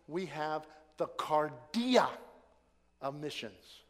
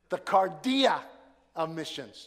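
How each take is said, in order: First: Measured, deliberate delivery; slow careful phrasing. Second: Cardia hit loud and firm; emphatic restated title; punchy repeat. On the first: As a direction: spell out we have the cardia of missions slowly. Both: Shown as a demonstration. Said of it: "Had to get that C in there".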